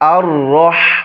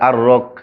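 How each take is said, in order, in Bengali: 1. সিলেবলটি একটি শ্বাসযুক্ত h ধ্বনি দিয়ে শেষ হয়। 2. সিলেবলটি একটি কঠিন k ধ্বনি দিয়ে শেষ হয়।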